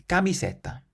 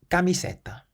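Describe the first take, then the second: The two takes are said the same way.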